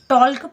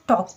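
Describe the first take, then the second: First: The word is said with an L sound. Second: The word is said without an L sound. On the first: The speaker calls it wrong. "टॉल्क पढ़ते हैं क्या, नहीं पढ़ते हैं।" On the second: The speaker calls it right. "टॉक पढ़ते हैं।"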